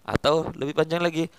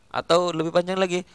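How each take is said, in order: The two takes are said the same way.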